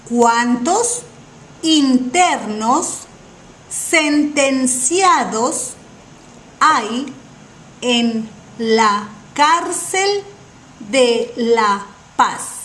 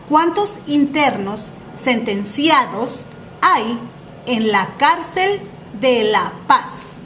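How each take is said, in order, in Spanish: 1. La pregunta se dice despacio. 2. La pregunta se dice rápido.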